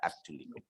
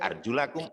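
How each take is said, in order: First: The vowel after 'arjul' is 'i'. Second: The vowel after 'arjul' is 'a'. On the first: The feet need only be wiped. "ada arjulikum" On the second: The feet must be washed. "Ada arjulakum"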